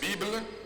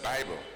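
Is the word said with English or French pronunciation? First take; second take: French; English. First: The word has French pronunciation. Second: The word has English pronunciation. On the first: "Français, c'est Bible" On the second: "En anglais, c'est Bible"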